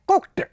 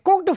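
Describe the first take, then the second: First: The word ends with a t sound. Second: The word ends with a d sound. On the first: The speaker calls it right. "लेकिन विश्व स्तर का उच्चारण क्या है" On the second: The speaker calls it wrong. "तो डे बोलूंगा"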